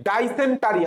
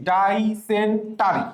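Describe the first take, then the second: First: Said in the usual way. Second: ডাইসেন্টারি slowly as "dai, sen, tari"; syllable-by-syllable. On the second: Shown as a demonstration. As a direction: break ডাইসেন্টারি into separate drawn-out chunks. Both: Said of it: "আমি একটু আগে পড়াইছি".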